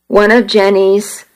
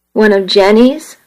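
First: Said in the usual way. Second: Jenny's rising in disbelief; incredulous echo. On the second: A narrator's reading. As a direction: throw the name Jenny's back as a stunned question. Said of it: "I thought".

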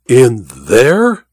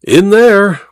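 First: Drawn dip then rising question; incredulous cry. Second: Higher, emphatic falling confirmation; firm repetition. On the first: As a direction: question it in astonishment. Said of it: "cried Goodall". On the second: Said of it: "repeated Welton". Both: A narrator's reading.

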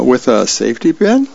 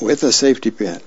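First: Rising question on "pin". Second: Falling statement, "pin" settling down; matter-of-fact confirmation. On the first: Charlie Brown queries his sister's plan, questioning rise on "pin". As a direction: ask it, lifting "pin" at the end. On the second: Little sister answers her brother's doubt, matter-of-fact fall on "pin". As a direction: confirm it plainly, no lift on "pin". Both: Acted.

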